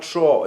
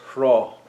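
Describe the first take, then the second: First: The word begins without an h sound. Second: The word begins with an h sound. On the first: The speaker calls it wrong. "It's not Shra" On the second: The speaker calls it right. "it's Shra. It's a H sound"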